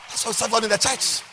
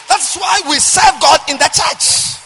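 First: Said in the usual way. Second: Loud, high, slow preached cry; shouted refrain. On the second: Acted. Pastor shouting the refrain to congregation. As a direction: belt it out to the pews.

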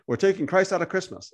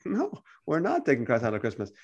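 First: Objection. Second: Low, softer acted answer; calm rebuttal. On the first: Acted. Imagined objector complaining about Christmas, mildly protesting. Voices an objector, then answers. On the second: Believer answering the Christmas objector, calmly correcting. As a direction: answer the objection quietly, pitch dropped.

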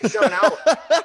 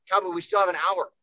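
First: Louder, laughing through the reminder; laughing mock calm-down. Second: Said in the usual way. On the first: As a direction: tease the hyped fighter while laughing. Repeats calming line, laughing.

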